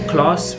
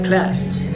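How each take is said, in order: First: It is said with a British accent. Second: It is said with an American accent. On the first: "speak British English" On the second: "adjust their accent a little bit just for better understanding"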